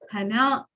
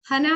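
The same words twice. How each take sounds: First: It has the pitch pattern of the word nose. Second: It has the pitch pattern of the word flower. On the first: The word means nose. "Hana means nose" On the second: The word means flower. "Hana means flower"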